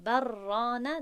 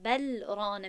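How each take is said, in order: First: «بر رانه» as one word with a doubled R; wrongly merged L. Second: «بل رانه» with the L of «بل» clearly sounded; اظهار, unmerged L. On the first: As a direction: run «بر رانه» together on a long rolled R. («بر رانه» با ادغام و رای مشدد) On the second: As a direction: keep «بل» separate from «رانه», no merging. («بل رانه» با لام آشکار، بدون ادغام) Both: Shown as a demonstration.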